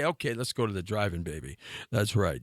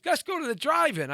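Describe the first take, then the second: First: Put-on low suave teenage Romeo; put-on deep ladykiller voice. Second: High mock girlfriend invitation; put-on girly coaxing; imitated girl. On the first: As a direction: drop it down deep and smooth for the girlfriend. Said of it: "I had that deep voice". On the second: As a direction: lightly voice a girl, pitched up. Quotes the girl's invitation.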